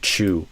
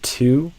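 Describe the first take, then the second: First: The word begins with a CH sound. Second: The word begins with a crisp T sound. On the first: The speaker calls it wrong. "a lot of Brazilians would do chew" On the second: The speaker calls it right. "this t, t, t sound, not a C H"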